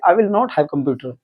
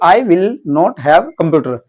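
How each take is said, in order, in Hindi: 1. यह वाक्य तेज़ और सहज तरीके से बोला गया है। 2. यह वाक्य धीरे-धीरे, शब्द-शब्द करके बोला गया है।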